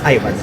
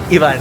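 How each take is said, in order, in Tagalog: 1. Ang pangalan ay binibigkas sa paraang Ingles. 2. Ang pangalan ay binibigkas sa paraang Espanyol.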